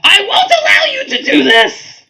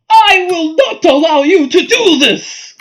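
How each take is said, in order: First: It is said in a Goblin King voice. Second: It is said in the Queen of Darkness's voice.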